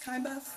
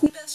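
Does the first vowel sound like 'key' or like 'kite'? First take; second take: kite; key. First: The first vowel sounds like 'kite'. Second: The first vowel sounds like 'key'. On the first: This is a friend's pronunciation. The speaker calls it wrong. "she says it's Kybeth" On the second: This is the speaker's own pronunciation. The speaker calls it right. "I say Keybeth"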